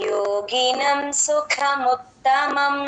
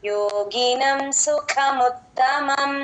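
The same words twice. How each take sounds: Both takes have the same delivery.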